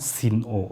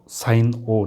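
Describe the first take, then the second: First: The first word has a short 'i' vowel. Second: The first word has a long 'eye' vowel. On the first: The speaker calls it wrong. "not sin O" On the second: The speaker calls it right. "we have to pronounce it as uh, sine O"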